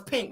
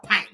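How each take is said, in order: First: Said in the usual way. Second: "pink" with an open "a", like "paink"; pink said as "pank". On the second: Shown as a demonstration. Vlogger renaming the colour, "pink" said "pank". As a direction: turn the vowel of "pink" into "pank". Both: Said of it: "I gotta call it pink".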